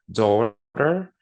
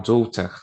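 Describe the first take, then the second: First: It has a strong R sound at the end. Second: It has no R and a shorter ending. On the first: "um americano vai falar daughter, é com esse R bem puxado" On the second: "o britânico vai falar daughter, né? Mais seco, um som mais curto"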